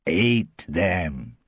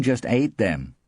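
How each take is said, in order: First: ATE drawn out and weighted; meaningful stress on ATE. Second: Said in the usual way. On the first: A narrator's reading. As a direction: stretch "ate" to hint at a grisly meaning. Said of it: "She means ate them". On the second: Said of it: "she doesn't mean just ate them".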